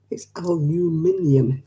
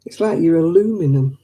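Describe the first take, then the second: First: Slow aluminium with five syllables, al-u-MIN-i-um; British aluminium. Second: Aluminum said the American way, four syllables a-LU-mi-num; mock the American aluminum. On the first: Shown as a demonstration. Correcting viewers with the British aluminium. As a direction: spell out aluminium slowly the British way. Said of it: "if you spell it out phonetically". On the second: Mocking the American way of saying aluminum. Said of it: "What the hell is aluminum".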